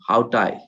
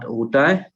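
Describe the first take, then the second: First: The word starts with an 'h' sound. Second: The word starts with an 'oo' sound. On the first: The speaker calls it right. "because you have alpha" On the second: The speaker calls it wrong. "not utai"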